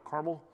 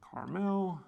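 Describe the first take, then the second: First: It is said with a local Indiana pronunciation. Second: It is said with a standard pronunciation.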